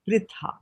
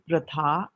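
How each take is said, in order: First: The vowel after r sounds like 'i'. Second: The vowel after r sounds like 'a'. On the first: The speaker calls it right. "it will be pritha" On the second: The speaker calls it wrong. "So this will not be pratha"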